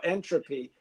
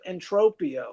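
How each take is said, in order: First: Entropy said like the science word, EN-tro-pee; Entropy as the everyday word, no -ia ending; Entropy pronunciation. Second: Entropia said in full as en-TRO-pee-ah; Entropia pronunciation. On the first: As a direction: say Entropy with three syllables, stress on EN. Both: Shown as a demonstration. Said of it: "You could pronounce it either way".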